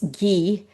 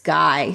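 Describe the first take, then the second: First: The name is said with a French pronunciation. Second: The name is said with an American pronunciation. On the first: "in French it's Guy" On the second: "in American it's Guy"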